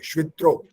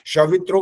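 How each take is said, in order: First: The sh joins straight onto v without vowel. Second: A short vowel separates the sh from v. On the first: The speaker calls it right. "श आधा है ये" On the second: The speaker calls it wrong. "शवित्रो गलत हो जाता है"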